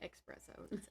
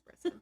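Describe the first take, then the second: First: The word begins with an 'ex' sound. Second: The word begins with an 'ess' sound. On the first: This is how people usually say it. The speaker calls it wrong. "we always say espresso" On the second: This is the correct form of the word. The speaker calls it right. "It's espresso"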